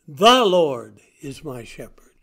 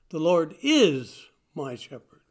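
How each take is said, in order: First: The stress falls on the word 'The'. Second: The stress falls on the word 'is'. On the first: There is only one Lord, no other. "Not any Lord, not anybody. The Lord, the one and only" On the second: The speaker states it with firm confidence. "A statement of confidence, a statement of definite belief"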